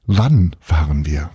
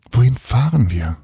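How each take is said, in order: First: WANN fahren wir, wann hit hard and slow; boy corrects Annie by stressing wann. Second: Wohin FAHREN wir, weight on fahren; stress on fahren. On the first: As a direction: slowly punch the word wann, correcting her. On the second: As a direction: lean on the word fahren, asking where. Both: A narrator's reading. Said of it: "es geht eher um".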